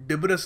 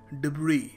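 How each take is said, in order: First: The word ends with a pronounced s sound. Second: The word ends with no s sound. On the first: The speaker calls it wrong. "सो वो जो देखते हैं वो बोल देते हैं" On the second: The speaker calls it right. "इसको सही तरीका है प्रोनाउंस करने का"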